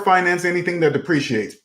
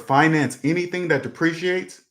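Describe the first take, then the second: First: The phrase is spoken at a fast pace. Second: The phrase is spoken at a slow pace. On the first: "Am I speaking too fast?" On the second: "I'll say it slower"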